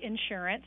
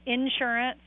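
First: The word is said as one smooth unit. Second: The word is split into two separate parts. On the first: The speaker calls it right. "say insurance. It's one word" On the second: The speaker calls it wrong. "I would make it two words"

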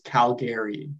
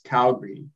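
First: Calgary is said with the outsider pronunciation. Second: Calgary is said with the local pronunciation. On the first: This is how people from elsewhere say it. "But for everyone else, it's Calgary" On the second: This is how people from the city say it. "for people from there, it's Calgary"

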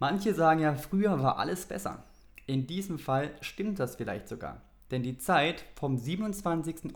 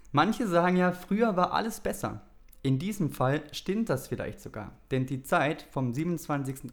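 The two takes are said the same way.

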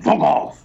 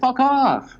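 First: It is barked out harshly and aggressively. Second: It sounds pleading, as if begging them to stay.

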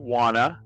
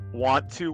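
First: The words are blended into one reduced word. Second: Both words are said fully and separately. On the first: "informal contractions" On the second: "ones that end with to"

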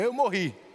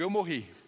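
First: It is said forcefully, with strong conviction. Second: It is said plainly, without much force.

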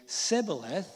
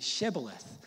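First: The word begins with an s sound. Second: The word begins with a sh sound. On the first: The speaker is from Ephraim. "the people from Ephraim couldn't say Shibboleth, they say Sibboleth" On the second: The speaker is not from Ephraim. "they ask you to say Shibboleth"

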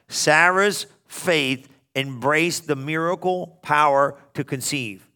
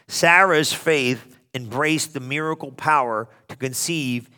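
First: The sentence is read slowly. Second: The sentence is read at a normal pace.

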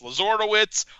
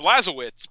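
First: An R sound is heard in the name. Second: No R sound is heard in the name. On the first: The speaker calls it wrong. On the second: The speaker calls it right.

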